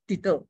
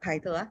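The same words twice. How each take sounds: First: The first vowel is short, like 'it'. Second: The first vowel is long, like 'eye'. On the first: The speaker calls it right. "double T in our English" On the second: The speaker calls it wrong. "It's not title"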